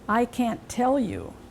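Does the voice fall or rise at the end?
falls. The pitch falls at the end. It is a statement. "They end in a pitch fall"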